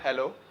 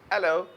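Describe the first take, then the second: First: The starting h sound is pronounced. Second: The starting h sound is dropped. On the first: The speaker calls it wrong. "Not हेलो" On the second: The speaker calls it right. "शुरू में जो एच आ रहा होता है ना उसको silent करेंगे"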